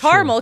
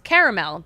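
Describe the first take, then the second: First: Two syllables, with the middle vowel dropped. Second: Three syllables, with the middle vowel pronounced. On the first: The speaker calls it wrong. "you're just skipping over a whole letter" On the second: The speaker calls it right. "because those are the letters in the word"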